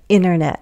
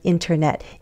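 First: The T after the N is dropped. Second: The T after the N is pronounced. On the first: "I can also drop that T. Americans often do that" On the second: "instead of"

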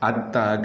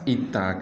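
First: The word begins with an a vowel. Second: The word begins with an i vowel. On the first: "Atta ke baris atas" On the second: "itta ke baris bawah"

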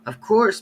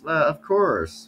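First: It is said in a put-on French accent. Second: It is said in a plain, ordinary accent.

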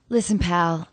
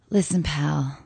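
First: The line is delivered in a plain, neutral way. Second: The line is delivered in a lusty, seductive way.

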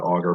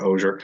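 First: The name is said to sound like 'auger'. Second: The name is said to sound like 'osier'. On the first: The speaker calls it wrong. "not Auger" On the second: The speaker calls it right. "trying to say it correctly, but Osier"

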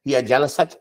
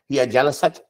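First: The two words run together as one unit. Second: The two words run together as one unit.

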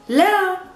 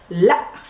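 First: The vowel is long and open at the end. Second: The vowel is cut off by a glottal stop. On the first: This is the standard formal way to say no. "the modern standard Arabic normal way to say no" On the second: This is the everyday spoken way to say no. "Just making this glottal stop at the ending"

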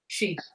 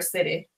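First: The word sounds like 'she', one open syllable. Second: The word sounds like 'city', with two syllables. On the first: The speaker calls it right. "Nope, she" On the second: The speaker calls it wrong. "or City"

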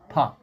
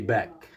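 First: The word begins with a voiceless p sound. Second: The word begins with a voiced b sound. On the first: The speaker calls it right. "You have to say park" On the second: The speaker calls it wrong. "Don't say back"

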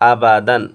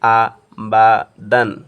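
First: The syllables are said joined as one word. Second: The syllables are said separately with breaks between. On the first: "একসাথে মিলে পড়ব" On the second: "বাঙ্গি উচ্চারণ করে পড়ব"

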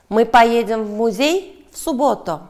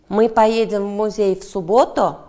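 First: The stress falls on the word 'музей'. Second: The stress falls on the word 'субботу'. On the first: The question asks where they will go. "Да, в музей" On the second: The question asks when they will go. "Да, суббота"

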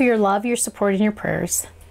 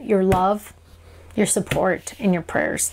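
First: The phrase is said quickly, run together. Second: The phrase is said slowly, word by word. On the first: "I know I always say that really fast" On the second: "but every single word"

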